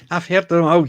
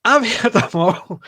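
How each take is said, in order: First: Said in the usual way. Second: Laughing through the words. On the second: Real, not acted. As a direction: chuckle it out, amused. Laughing after telling jokes.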